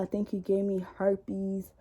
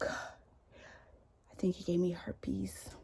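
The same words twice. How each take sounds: First: Said in the usual way. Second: Unvoiced, slow secretive whisper; whispered confession. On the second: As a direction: breathe it like a shameful secret. Ex's whispered phone confession.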